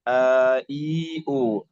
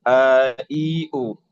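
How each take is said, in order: The two takes are said the same way.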